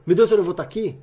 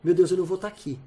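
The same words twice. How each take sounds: First: "meu Deus, eu não vou tá aqui" louder, as an alarmed question; alarmed intonation. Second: "Meu Deus, eu não vou tá aqui" less forceful, falling at the end; reflective intonation. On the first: Guest demonstrating someone waking up to mortality, alarmed intonation. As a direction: hit "meu Deus" hard, startled at the thought. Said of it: "quase que mudar só a entonação". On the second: Guest showing the same phrase turned to reflection, calmer intonation. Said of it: "depende da entonação da tua pergunta". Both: Shown as a demonstration.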